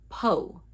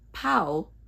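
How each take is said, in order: First: The vowel is a single pure 'o' sound. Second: The vowel glides like the 'ow' in cow. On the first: The speaker calls it right. "but po" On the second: The speaker calls it wrong. "Not pow"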